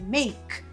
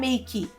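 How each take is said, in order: First: It ends on the k with no vowel after. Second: An extra vowel sound follows the final k. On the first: The speaker calls it right. "Nada de você pronunciar esse e" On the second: The speaker calls it wrong. "não é make"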